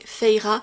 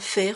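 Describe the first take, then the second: First: The name has its original, two-syllable pronunciation. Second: The name has a French, one-syllable pronunciation. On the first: This is what the character is really called. "en vrai Feira" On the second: This is the habit from an early reading. "je le prononce à la française"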